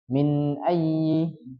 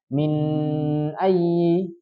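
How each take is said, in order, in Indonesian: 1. Bunyi sengau n dibaca pendek. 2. Bunyi sengau n dibaca panjang. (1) "yang betul sekedar menghidupkan sifat nunnya saja" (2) "tadi terlalu panjang gunnahnya"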